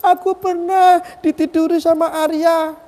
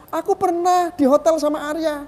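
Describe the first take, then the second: First: High, loud wailing imitation of crying; exaggerated sobbing squeal, drawn out slowly; mock crying. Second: High-pitched mimicked complaint; put-on high wail, less loud; mock tearful accusation. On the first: Speaker mimics the woman tearfully accusing him, mock wailing. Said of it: "Dia nangis-nangis". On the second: Speaker corrects his imitation of the accusing woman, mock tearful. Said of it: "Eh, bukan begitu ngomongnya".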